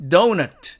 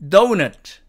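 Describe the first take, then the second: Both takes have the same delivery.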